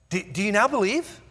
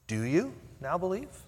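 First: It sounds excited and eager. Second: It sounds doubtful and skeptical.

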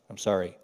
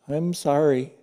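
First: It sounds grudging and insincere. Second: It sounds cheerful, with a smile.

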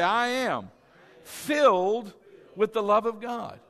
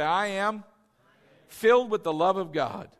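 First: It is said with strong conviction. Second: It is said plainly, without special conviction.

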